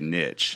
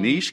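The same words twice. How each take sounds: First: The word is said with a plain English pronunciation. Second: The word is said with a French-sounding pronunciation. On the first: The speaker calls it right. "I like to say niche" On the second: The speaker calls it wrong. "you're trying to sound like super French or something"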